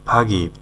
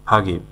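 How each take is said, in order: The two takes are said the same way.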